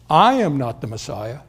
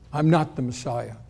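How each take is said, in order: First: The stress falls on the first word, I. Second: The stress falls on Messiah, not on I. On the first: It leaves open that someone else is. "there's a special emphasis on the first word" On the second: It is a simple denial. "John very simply looks back at them and says"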